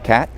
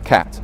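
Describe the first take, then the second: First: The final t is held and not released. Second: The final t is released with audible air. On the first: "usually we say hit and cat" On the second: "and not hits or cat, though we can"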